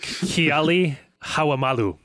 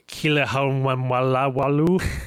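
First: The surname is said carefully, syllable by syllable. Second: The surname is said in a garbled, mangled way. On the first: The speaker calls it right. "That was much better" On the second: The speaker calls it wrong. "I'm going to butcher the pronunciations of this"

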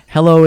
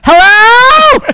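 First: It is said at a normal, calm volume. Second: It is screamed very loudly.

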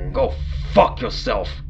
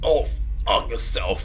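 First: It is snarled in a fairly clear voice. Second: It sounds garbled, as if through blood.

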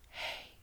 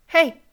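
First: It is said in a creepy, raspy voice. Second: It is said in a plain, clear voice.

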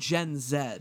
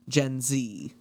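First: Z is said the British way, as zed. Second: Z is said the American way, as zee.

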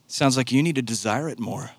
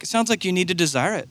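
First: It is said in a sinister tone. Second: It is said in a kind, well-meaning tone.

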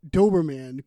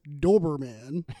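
First: The word is said in a Boston accent. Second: The word is said in a standard accent. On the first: This is how the hosts will say it. "People have mentioned our Boston accents. We're going to be saying Doberman" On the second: This is the pronunciation the hosts intend. "what we mean, I suppose, is Doberman"

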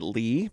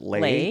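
First: The name rhymes with 'see'. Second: The name rhymes with 'day'. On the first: "Is it Lee?" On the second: "Is it Lay?"

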